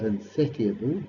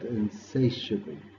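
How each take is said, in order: First: The middle T is pronounced as a clear T sound. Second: The middle T is not pronounced as a T sound. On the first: The speaker calls it wrong. "Note the T here is silent, so it's not insatiable" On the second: The speaker calls it right. "but insatiable"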